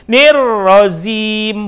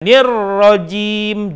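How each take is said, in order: First: The consonant before the last vowel is 'z'. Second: The consonant before the last vowel is 'j'. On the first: The speaker calls it wrong. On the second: The speaker calls it right.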